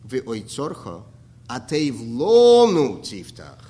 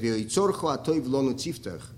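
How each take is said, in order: First: The phrase breaks after the word lonu. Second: The phrase breaks after the word atoiv. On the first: Open the part of your treasury that is good for us. The speaker calls it right. "you have to read it like this" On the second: Open for us the goodness of your treasury. The speaker calls it wrong. "we say"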